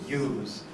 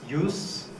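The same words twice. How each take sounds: First: The vowel is long, ending in a voiced buzz. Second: The vowel is short, ending in a voiceless hiss. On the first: The word is a verb. "So the verb is lengthened" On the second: The word is a noun. "when this word is used as a noun, it is pronounced shorter"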